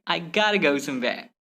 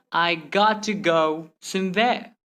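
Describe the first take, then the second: First: "gotta" joined in quick flow; merged letters. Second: Slow, "got" held apart from "to"; word-by-word. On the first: Teacher repeating the faster example, merged words. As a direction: run "gotta go" together. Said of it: "simply say". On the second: Teacher repeating the slow example, word-by-word. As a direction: separate each word. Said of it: "Instead of saying". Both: Shown as a demonstration.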